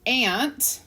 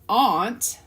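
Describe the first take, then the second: First: It sounds the same as the insect ant. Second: It sounds different from the insect ant. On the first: "like the creature" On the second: "that's a stupid way to pronounce the word aunt"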